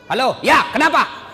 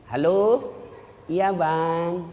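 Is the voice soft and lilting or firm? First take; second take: firm; soft. First: It is said in a firm, curt voice. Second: It is said in a soft, lilting voice.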